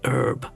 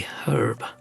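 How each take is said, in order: First: The word starts without an h sound. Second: The word starts with an h sound. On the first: This is how Americans say it. "they don't say the H" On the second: This is how the speaker says it. "where I would say a herb"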